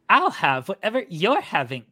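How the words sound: It is spoken in a pitchy valley girl voice. The speaker calls it right. "That's better"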